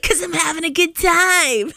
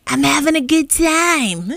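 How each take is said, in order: First: Quoting a film character. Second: Higher, slow, giggling through it; laughing at own motto. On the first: Retold or imitated. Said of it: "He's like". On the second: Real, not acted. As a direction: chuckle the motto.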